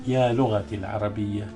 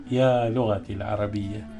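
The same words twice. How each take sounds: The two takes are said the same way.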